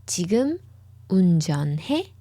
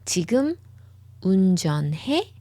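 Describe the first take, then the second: No difference in how they are said.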